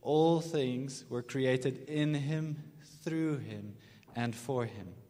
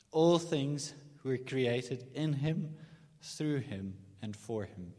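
First: Very slow, for the congregation to follow; slow unison recitation; slow call and response. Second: Slow and deliberate, each phrase landed; slow, emphatic scripture phrase; slow, weighty reading. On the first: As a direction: lead them through it slowly. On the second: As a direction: read it slowly like a creed. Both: Shown as a demonstration. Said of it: "So just say that with me".

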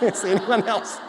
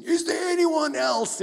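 First: Laughing repeat. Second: High, loud, slow arena shout; hammed-up gladiator cry. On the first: Retold or imitated. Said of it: "it's like". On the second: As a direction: bellow it to the crowd. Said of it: "that gladiator scene".

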